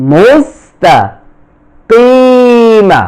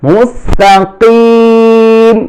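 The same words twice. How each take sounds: First: মুস্তাকিমা said slowly with a final open a; মুস্তাকিমা drawn out, vowel sounded at the end; ending in kima. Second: মুস্তাকিম closed on m, ি held long; মুস্তাকিম stopped with jazm, stretched three alifs; stop on mustaqim. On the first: Teacher reading মুস্তাকিমা with the final vowel sounded. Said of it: "অনেকে উচ্চারণ করতে কিমা বলে". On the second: Teacher showing students the right stop: মুস্তাকিম, closed on m. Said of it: "ওয়াকফ করলে জজম হবে, তিন আলিফ টান হবে". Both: Shown as a demonstration.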